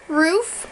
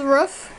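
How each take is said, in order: First: ROOF with a long oo, as in "food"; long-vowel ROOF; own pronunciation. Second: ROOF with a short vowel, as in "book"; mother's pronunciation. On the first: Shown as a demonstration. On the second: Retold or imitated. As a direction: say ROOF like "ruff", short and lax. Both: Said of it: "although my mother says roof".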